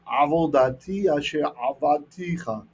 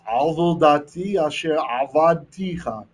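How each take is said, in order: First: "Avodati asher avadticha" repeated slowly, sounds stressed; slowly again so the rhyme is heard; rhyming Hebrew. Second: "Avodati asher avadticha" said slowly, sounding out the rhyme; rhyming Hebrew. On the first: Teacher repeats the wordplay for students, slow. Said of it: "You see, you hear it?". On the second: Teacher shows students the wordplay, slow and deliberate. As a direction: let the alliteration ring, slow. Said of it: "If you listen". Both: Shown as a demonstration.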